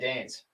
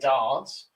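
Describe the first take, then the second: First: The word is said in an ordinary accent. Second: The word is said in a posh accent. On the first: The speaker sounds like everyone else. "everybody else will say dance" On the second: The speaker sounds upper-class. "the posh will say dance"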